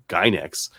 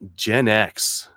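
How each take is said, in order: First: It is said as one word, 'Gynex'. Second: It is said as two words, 'Gen X'. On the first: The speaker calls it wrong. "I've been pronouncing these like Gynex" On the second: The speaker calls it right. "that sounds way better"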